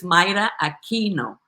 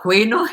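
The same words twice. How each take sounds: First: "Myra Aquino" in Spanish, MEE-ra with a tapped r, a-KEE-no with a hard K; "Aquino" as a-KEE-no, the correct Spanish pronunciation. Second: "Aquino" said the English way, a-KWEE-no, like Chris says it; mock Chris's "Aquino" with a KW sound, a bit louder; "Aquino" anglicized as a-KWEE-no, the wrong way; imitating the wrong pronunciation. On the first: Shown as a demonstration. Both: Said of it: "Chris never can pronounce it right".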